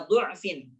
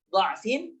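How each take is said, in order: First: Du'fin with a u after the heavy d, slowly; dhammah on dhad. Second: Dha'fin with an a after the heavy d; fathah on dhad. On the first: Teacher shows second option for students, du'fin with u vowel. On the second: Teacher shows first option for students, dha'fin with a vowel. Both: Shown as a demonstration. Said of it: "dhammah atau fathah".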